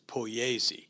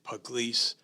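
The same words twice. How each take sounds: First: The final E is sounded as a syllable. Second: The final E is silent. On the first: This is the original Italian form of the name. "the original uh, Italian is Pugliese" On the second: This is the form the family chose to use here. "he decided Pugliese"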